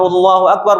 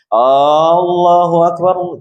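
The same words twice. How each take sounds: First: The opening vowel is short. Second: The opening vowel is drawn out long. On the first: God is great. The speaker calls it right. "Kalau yang muadzan, Allahu Akbar" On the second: It asks whether God is great. The speaker calls it wrong. "bukan Allahu Akbar"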